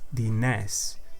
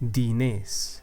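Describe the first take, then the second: First: The E vowel is pronounced open. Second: The E vowel is pronounced closed. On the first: The speaker calls it wrong. "If it was an open E, it would sound like E" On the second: The speaker calls it right. "that E is a closed E. Listen closely to the way I pronounce it"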